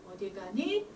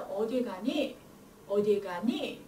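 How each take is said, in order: First: 가니 lifted at the end; wrong rising tune. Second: 가니 dropping at the very end; falling question tune. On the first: Teacher shows the tune not to use, wrong rising tune. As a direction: push 니 upward at the close. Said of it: "이렇게 안 하고요". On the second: Teacher shows the natural Korean tune, falling question tune. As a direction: bring 니 down to close the question. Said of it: "있을 때는 뒤를". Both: Shown as a demonstration.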